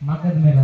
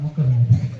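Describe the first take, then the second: First: The first vowel of the first word is 'a'. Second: The first vowel of the first word is 'u'. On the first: The speaker calls it wrong. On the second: The speaker calls it right.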